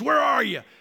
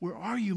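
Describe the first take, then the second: First: It sounds angry and threatening, like a mobster. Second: It sounds tender and sad, like a brokenhearted dad.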